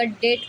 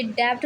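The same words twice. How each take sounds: First: Said in the usual way. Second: डेब्ट with the b sounded; wrong pronunciation with b. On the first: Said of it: "डेट पढ़ा जाएगा". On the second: Shown as a demonstration. Teacher showing pupils the wrong reading of डेब्ट. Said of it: "ये डेब्ट नहीं बोला जाएगा".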